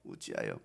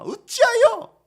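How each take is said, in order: First: 어찌하여 dropped low and soft, almost murmured; quiet 어찌하여. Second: 어찌하여 said high and loud as a demand; loud questioning 어찌하여. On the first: Preacher echoing the question to himself, 어찌하여 low and soft. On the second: Preacher repeating Jesus's question, 어찌하여 high and loud. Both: Shown as a demonstration.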